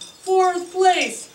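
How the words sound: It is said in a put-on announcer voice. The speaker calls it right.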